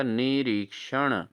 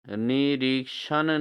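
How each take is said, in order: First: निरीक्षण slowly, ending in retroflex n; correct pronunciation. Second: निरीक्षण ending in plain n; wrong pronunciation. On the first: Teacher answers for students, निरीक्षण with retroflex n. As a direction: draw out निरीक्षण, tongue curled at the end. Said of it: "क्या होगा?". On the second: Teacher shows students the error, निरीक्षण with plain n. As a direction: say निरीक्षण with dental n. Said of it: "नहीं दोस्तों". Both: Shown as a demonstration.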